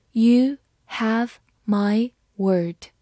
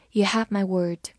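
First: Slow and clear; slow reading. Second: Said in the usual way. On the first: Shown as a demonstration. Teacher reading slowly for students, slow and clear. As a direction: read it slowly for learners. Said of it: "slow repeat". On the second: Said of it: "normal repeat".

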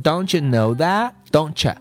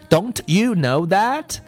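First: "Don't you" merged as doncha; linked doncha. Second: "Don't you" spelled out word by word; full form. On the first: Teacher contrasts forms for learners, linked doncha. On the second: Teacher contrasts forms for learners, full "don't you". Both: Shown as a demonstration. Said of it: "它会读成".

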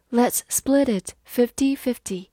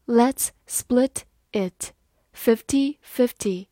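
First: Said in the usual way. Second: Each word spaced out slowly; slow, careful demo read. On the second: Shown as a demonstration. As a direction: read it slowly for learners to follow. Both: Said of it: "好，慢慢来读。".

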